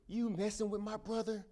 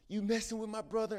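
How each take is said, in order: First: Much higher, fierce demand; big brother confronting the bully, fierce and high; intense challenge. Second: Higher and louder repeat of the demand; big brother pressing the bully again, fierce and high; intense challenge. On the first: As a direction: square up and call him out. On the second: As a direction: push harder on the second ask. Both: Acted. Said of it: "very intense".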